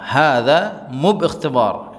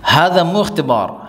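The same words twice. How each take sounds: First: Drawn-out, careful repetition; very slow repeat. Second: Said in the usual way. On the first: Shown as a demonstration. Teacher repeats the Arabic phrase very slowly for students. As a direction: stretch every syllable for learners. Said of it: "slow repeat for students". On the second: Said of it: "teacher models then repeats".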